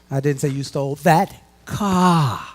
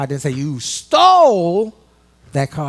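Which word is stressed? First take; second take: car; stole. First: The word 'car' is stressed. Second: The word 'stole' is stressed.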